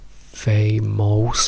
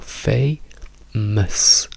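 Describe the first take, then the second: First: The second syllable has a full vowel. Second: The second syllable has a reduced schwa vowel. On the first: The speaker calls it wrong. "non diciamo famous" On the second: The speaker calls it right. "diciamo fei, ms"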